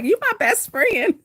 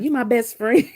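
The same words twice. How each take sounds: First: High, slow, cooing voice; teasing sing-song. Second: Said in the usual way. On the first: Retold or imitated. Teasing her husband who stares at her, high slow coo. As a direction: coo it at him playfully. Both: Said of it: "I'm like".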